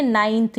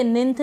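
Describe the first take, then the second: First: नाइन्थ with an "aai" sound, naainth; correct ninth. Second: निन्थ with a short i, ninth; wrong ninth. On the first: Teacher shows learners the right reading: नाइन्थ with ai. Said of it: "इसको हम नाइन्थ पढ़ेंगे". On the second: Teacher shows learners the wrong reading: निन्थ with a short i. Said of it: "निन्थ नहीं पढ़ेंगे". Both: Shown as a demonstration.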